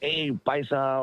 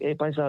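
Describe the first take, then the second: First: It is said with a hostile, contemptuous attitude. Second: It is said in a friendly, respectful tone. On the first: The term is used as an insult. "with like some kind of attitude" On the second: The term is used with respect.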